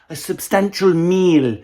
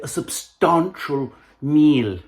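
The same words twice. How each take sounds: First: It is said in an ordinary, unposh accent. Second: It is said in an exaggerated posh accent.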